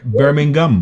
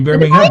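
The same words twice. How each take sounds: First: Slow "Birmingham" as Birming-gum, with a hard g; "Birmingham" ending in a hard -gum; Birmingham pronunciation. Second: Said in the usual way. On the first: Shown as a demonstration. Host demonstrates for co-host, hard-g "Birmingham". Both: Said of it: "yung Birmingham, ano, pronunciation".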